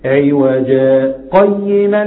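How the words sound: There is a brief pause after the first word. "لكن السكت عوجا قيما لينذر"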